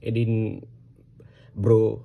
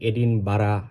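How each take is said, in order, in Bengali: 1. শেষ অংশটি এক দফার একটি দল, go-এর সাথে মেলে। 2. শেষ অংশটি দুই দফায় উচ্চারিত হয়, bara। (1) "এই এইভাবে" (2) "আমরা অনেক সময় এটা প্রোনাউন্স করি"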